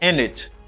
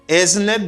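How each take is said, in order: First: The words blend into one reduced form. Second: Both words are said fully and separately.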